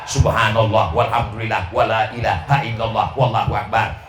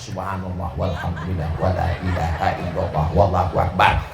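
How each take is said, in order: First: It is spoken aloud with full voice. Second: It is murmured quietly, barely voiced. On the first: The praise is recited so others can hear. "Ada yang bersuara" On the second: The praise is recited privately while doing errands.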